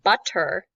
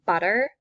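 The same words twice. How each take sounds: First: The middle T is fully pronounced. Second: The middle T is reduced to a D-like flap. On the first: "fully pronunciating the T sound" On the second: "we will reduce that T sound to a D"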